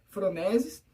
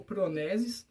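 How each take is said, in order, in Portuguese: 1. A palavra começa com som de F. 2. A palavra começa com som de P. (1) "eu acho que é com F" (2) "porque é P H"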